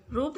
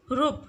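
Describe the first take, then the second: First: रूप with a long "oo"; correct pronunciation. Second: रूप with a short "u", "rup"; wrong pronunciation. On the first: Teacher correcting for pupils, रूप with long "oo". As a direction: lengthen the vowel in रूप. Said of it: "बड़ा ऊ". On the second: Teacher showing pupils the mistake, रूप with short "u". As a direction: cut the vowel of रूप short. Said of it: "रूप नहीं होता". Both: Shown as a demonstration.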